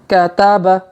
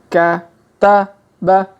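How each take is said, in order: First: It is read quickly as one smooth word. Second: It is read slowly, syllable by syllable. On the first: "Kalau dipercepat" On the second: "kita baca pelan-pelan"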